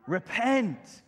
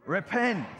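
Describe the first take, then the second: First: Loud called-out word; group call. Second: Louder, punchier call; more energy. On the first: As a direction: call it out for all to repeat. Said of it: "Can you say it with me?". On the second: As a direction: give it more energy this time. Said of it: "say it with a bit more energy than that". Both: Shown as a demonstration.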